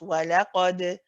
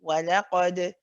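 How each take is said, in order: First: The final d ends with a gentle, natural bounce. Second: The final d ends with a gentle, natural bounce.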